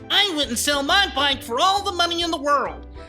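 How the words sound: It is said in an imitated character voice.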